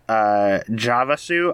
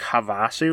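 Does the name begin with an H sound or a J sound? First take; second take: J sound; H sound. First: The name begins with a J sound. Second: The name begins with an H sound. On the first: "I've pronounced it both ways" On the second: "I'm assuming that it's probably like Havasu"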